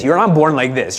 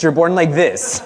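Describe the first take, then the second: First: "not" pushed hard, the rest falls away; stress on not. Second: "like" stressed as you show the hands. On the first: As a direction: lean on "not" to deny it. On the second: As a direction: lean on "like" to point out the gesture. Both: Shown as a demonstration. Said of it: "Show me your hands".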